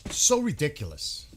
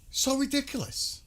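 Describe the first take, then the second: First: Louder, "So" leaned on hard and falling; fed-up outburst at the news; loud exasperated sigh of a line. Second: "So ridiculous" in a much higher put-on squeal; mock the whole idea in a silly high tone; high mocking falsetto echo. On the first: Real, not acted. Scoffs at diplomatic talk.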